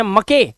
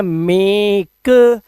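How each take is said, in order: First: मके mis-read as 'ma-kay'; मके in two literal syllables; wrong reading. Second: मेक drawn out with a long 'ay', released k; मेक rhyming with 'cake'; correct reading. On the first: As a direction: sound the final e in मके. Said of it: "इसको पढ़ते हैं मके नहीं". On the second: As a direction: say मेक slowly with silent final e. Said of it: "इसे पढ़ते हैं मेक". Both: Shown as a demonstration.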